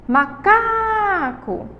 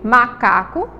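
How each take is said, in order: First: MACACO called high, CA held long; calling the word out. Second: Said in the usual way. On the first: Shown as a demonstration. Teacher shows pupils the stressed syllable, long high CA in macaco. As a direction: call "macaco" with a drawn-out CA. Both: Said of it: "a sílaba tônica de macaco".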